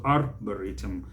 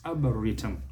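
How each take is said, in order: First: Arboretum with the first R sounded; American R. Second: Arboretum as ah-buh-REE-tum; British silent R. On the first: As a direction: say AR-buh-REE-tum with a clear R. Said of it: "they bring out the R". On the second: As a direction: drop the first R of arboretum. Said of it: "The British will not". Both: Shown as a demonstration.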